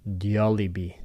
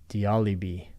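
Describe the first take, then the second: No difference in how they are said.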